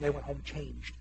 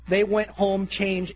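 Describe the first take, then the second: First: Low, soft, understated; hushed aside. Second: Slow, firm, each word weighted; emphatic repeat. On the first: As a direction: say it quietly, as if confiding. Quiet first take of key line. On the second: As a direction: preach "They went home changed" word by word, drawn out. Repeats key line for emphasis. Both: Real, not acted.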